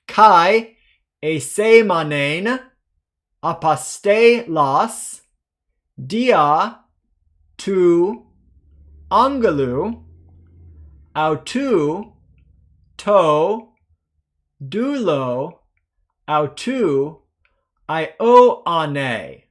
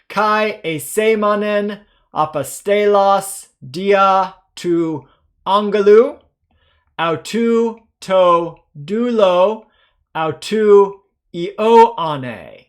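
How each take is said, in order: First: It is read at a slower pace. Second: It is read at a faster pace.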